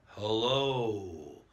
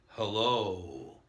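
Both takes have the same delivery.

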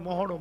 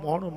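No difference in how they are said.

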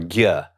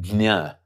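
First: It is said the North Indian way. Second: It is said the West Indian way. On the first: "in North India, they tend to try to pronounce that" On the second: "in West India, they tend to pronounce it"

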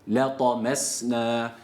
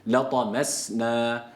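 The two takes are said the same way.

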